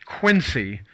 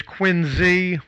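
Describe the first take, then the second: First: "Quincy" with a hissed s sound, QUIN-see. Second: "Quincy" with a buzzed z sound, QUIN-zee. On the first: Local explains the town name's mistaken form, "Quincy" said QUIN-see. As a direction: say "Quincy" as spelled, with S in the middle. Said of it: "It's not". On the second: Local teaches co-hosts the town's name, "Quincy" said QUIN-zee. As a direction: say "Quincy" with Z in place of the C. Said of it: "It's Quincy with the Z". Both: Shown as a demonstration.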